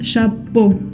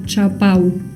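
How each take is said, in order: First: The ending is a single plain o vowel. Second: The ending is an a-u vowel glide. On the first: The speaker calls it right. "Es chapeau con una O" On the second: The speaker calls it wrong. "No quiero escuchar chapau"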